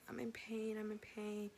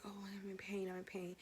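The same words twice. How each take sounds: First: Said in the usual way. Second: Breathy whispered moan of pain. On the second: Retold or imitated. To the nurse while in labor, whispered moan.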